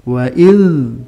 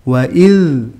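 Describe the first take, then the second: No difference in how they are said.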